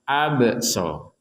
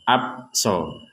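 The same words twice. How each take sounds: First: The b is released with an echoing bounce. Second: The b is closed flatly without any bounce. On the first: The speaker calls it right. "harus ada pantulannya" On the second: The speaker calls it wrong. "tidak sekedar abso"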